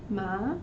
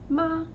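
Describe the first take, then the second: First: The pitch rises from middle to high. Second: The pitch stays high and level.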